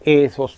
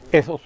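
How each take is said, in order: First: ETHOS with a long, drawn-out first E. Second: ETHOS with a short, quick first E. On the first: Lecturer showing students the Greek word, long E in "ethos". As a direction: hold the opening E of "ethos". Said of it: "escrito con la letra E aspirada y larga". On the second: Lecturer contrasting the two Greek words, short E in "ethos". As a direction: keep the opening E of "ethos" brief. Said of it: "En cuanto a su pronunciación es corta". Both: Shown as a demonstration.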